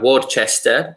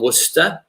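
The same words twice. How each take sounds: First: The name is said with an Italian pronunciation. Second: The name is said with a native English pronunciation. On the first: "how Italians pronounce it" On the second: "I'm from Worcester, in England"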